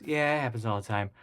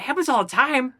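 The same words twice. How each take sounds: First: Casual, matter-of-fact dismissal; retold unconcern. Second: High, loud incredulous echo; acted stunned repeat; retold disbelief. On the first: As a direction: imitate brushing off an accident. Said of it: "They didn't even care". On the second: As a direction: throw it back in mock astonishment. Incredulous echo of her reply.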